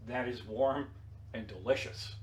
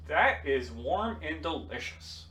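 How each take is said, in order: First: Softer, lower, deliberate repeat; quiet repeat. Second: Slow, savoring each word; slow appreciative tasting remark. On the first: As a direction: say it again quietly, each word apart. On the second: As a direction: relish it slowly, lightly. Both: Retold or imitated. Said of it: "I said".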